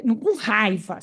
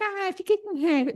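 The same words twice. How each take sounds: First: "com raiva" leaned on, heavy and meaningful; stress on "com raiva". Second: Said in the usual way. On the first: Shown as a demonstration. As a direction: weigh "com raiva" as real anger.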